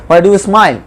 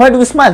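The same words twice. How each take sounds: First: Said in the usual way. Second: "smile" snapped higher, an irritated demand; angry question. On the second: Shown as a demonstration. Teacher demonstrating an angry "Why do you smile?" to students, mildly angry. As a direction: fire "Why do you smile?" at them in annoyance. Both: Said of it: "রাগ করে বলছো".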